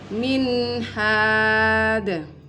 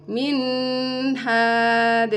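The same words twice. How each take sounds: First: The n is clear and flows into the h. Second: The n is held with a nasal hum. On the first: The speaker calls it right. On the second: The speaker calls it wrong.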